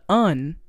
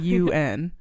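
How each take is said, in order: First: It is said as a single word. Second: It is spelled out as two letters. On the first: This is how the movie said it. "they said the un" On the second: This is the usual way to say it. "not the U N"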